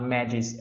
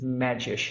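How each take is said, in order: First: The name ends with an s sound. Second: The name ends with an sh sound. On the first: The speaker calls it wrong. "as I used to, to pronounce" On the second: The speaker calls it right. "pronounces his name correctly"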